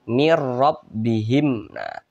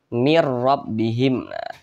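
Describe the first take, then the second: No difference in how they are said.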